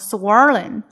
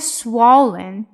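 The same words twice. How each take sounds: First: The middle consonant is an r sound. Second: The middle consonant is an l sound. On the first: The speaker calls it wrong. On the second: The speaker calls it right.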